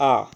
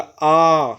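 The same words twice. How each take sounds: First: आ said short, one beat only; short vowel आ. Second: आ stretched over two beats, slow and louder; long drawn vowel आ. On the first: Teacher demonstrating the one-beat short आ to students. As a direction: clip the आ to a single count. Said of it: "एक मात्रा का समय लगा". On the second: Teacher stretching आ to show a two-beat long vowel. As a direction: hold the आ twice as long. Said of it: "दो मात्रा का और खींच दिया". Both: Shown as a demonstration.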